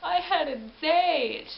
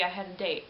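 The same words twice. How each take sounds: First: Loud, high, slow dismayed lament. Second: Said in the usual way. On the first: Retold or imitated. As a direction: draw it out like a heartbroken man. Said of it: "And he's like". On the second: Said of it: "roll credits after the".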